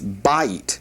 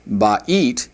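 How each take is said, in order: First: The stress is on the first syllable. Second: The stress is on the last syllable. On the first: The speaker calls it right. "You put the accent right there on the, the first syllable" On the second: The speaker calls it wrong. "Notice it's not ba'it"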